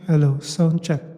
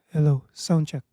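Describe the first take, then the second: First: The voice sounds reverberant, with added echo. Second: The voice sounds dry, without added reverb.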